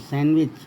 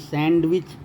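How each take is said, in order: First: The d is silent. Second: The d is pronounced. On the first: The speaker calls it right. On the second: The speaker calls it wrong.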